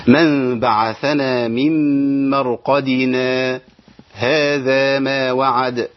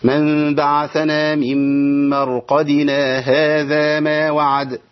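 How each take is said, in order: First: Slow chant, silent pause after مرقدنا before هذا; Quran recitation with sakt. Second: Slow chant, مرقدنا flowing straight into هذا; Quran recitation without sakt. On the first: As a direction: stretch the verse, stop briefly after مرقدنا, then هذا. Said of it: "أنا عملت إيه؟ سكت". (تلاوة مرتلة بالسكت بعد مرقدنا) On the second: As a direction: chant it through with no break after مرقدنا. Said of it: "ليا عدم السكت، لأن أقول". (تلاوة مرتلة بوصل مرقدنا بـ هذا دون سكت) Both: Shown as a demonstration.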